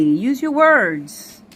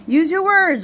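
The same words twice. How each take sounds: First: Slow coaxing. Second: Said in the usual way. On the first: Real, not acted.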